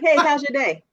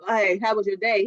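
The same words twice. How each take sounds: First: Cheerful, lifted greeting with a smile; smiling greeting. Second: Flat, lower greeting with a frown. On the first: Wife greeting her husband coming home, smiling and bright. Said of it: "I just smile. I'm like". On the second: Wife greeting her husband while worried, a mild frown in the voice. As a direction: ask it weighed down, no smile. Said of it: "if I had that frown on my face". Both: Retold or imitated.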